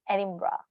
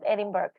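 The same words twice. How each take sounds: First: The ending sounds like 'burra'. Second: The ending sounds like 'burg'. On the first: The speaker calls it right. "it's pronounced raw" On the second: The speaker calls it wrong. "it's not Edinburgh"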